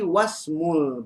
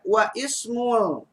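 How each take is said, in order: First: The 'i' vowel is dropped, linking 'wa' to 'smul'. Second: The 'i' vowel after 'wa' is clearly pronounced. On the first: The speaker calls it right. "Tapi wasmul" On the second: The speaker calls it wrong. "tidak boleh dibaca wa ismul"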